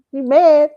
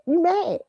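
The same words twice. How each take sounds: First: Loud mocking "You mad?" with a sneer; taunting question. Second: "You mad." as a flat dismissive verdict; taunting statement. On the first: To fans upset over her cruise critique, loud mocking question. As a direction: needle them: "You mad?". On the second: Acted. To fans upset over her cruise critique, dry dismissive taunt.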